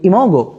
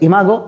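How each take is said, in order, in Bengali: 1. দ্বিতীয় স্বরধ্বনিটি 'oh' এর মতো শোনায়। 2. দ্বিতীয় স্বরধ্বনিটি 'ah' এর মতো শোনায়। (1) "আমি উচ্চারণ করতে ভালোবাসি ইমোগো" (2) "উচ্চারণ দ্বারা হচ্ছে ইমাগো"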